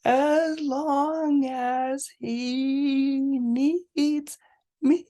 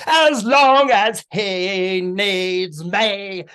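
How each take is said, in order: First: Slow, high sung audition line; sung audition piece. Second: Sung, loud, drawn-out Cockney show tune; sung, belt it out slowly in Cockney; belted Cockney singing. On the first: Friend auditioning for the school musical, slow high singing. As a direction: sing it slowly, holding each note. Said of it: "they prepare this song". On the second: Sung, volunteer outdoing a friend at audition, belted Cockney song. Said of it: "you know, with Cockney accent". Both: Acted.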